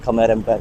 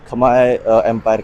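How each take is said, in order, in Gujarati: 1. પહેલો શબ્દ 'air' અવાજથી પૂરો થાય છે. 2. પહેલો શબ્દ 'eye' અવાજથી પૂરો થાય છે. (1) "બે દિવસથી વિડીયોમાં બી ને બધે ખમેર એમ્પાયર ખમેર એમ્પાયર કરતા હતા" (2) "એને પ્રોનાઉન્સ થાય છે ખમાય"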